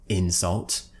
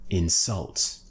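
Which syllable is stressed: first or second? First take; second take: first; second. First: The stress is on the first syllable. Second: The stress is on the second syllable. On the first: It is used as a noun. "here we're stressing the first syllable again on the noun" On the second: It is used as a verb. "and on the verb"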